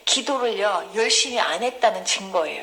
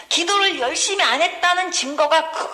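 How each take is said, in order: First: Said in the usual way. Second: Higher, forceful stress all through "기도를 열심히 안 했다는 증거가"; emphatic repetition. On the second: Real, not acted. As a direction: drive home "열심히 안 했다는" in a raised voice. Preacher repeats point with emphasis.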